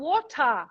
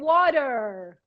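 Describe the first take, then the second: First: It is said in a British accent. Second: It is said in an American accent. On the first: "porque eles falam water" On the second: "os americanos falam water"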